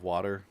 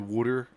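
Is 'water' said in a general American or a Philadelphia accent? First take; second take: general American; Philadelphia. First: It is said in a general American accent. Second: It is said in a Philadelphia accent. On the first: "instead of water" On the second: "back in Philly, they say water"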